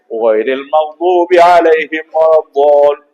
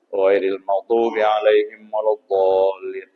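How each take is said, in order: First: It is recited loudly, with strong energy. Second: It is recited weakly, with little energy. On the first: The congregation's reply will also be strong. The speaker calls it right. "Apabila imamnya kencang" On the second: The congregation's reply will also be weak. The speaker calls it wrong. "Kalau imamnya lemas, aminnya lemas"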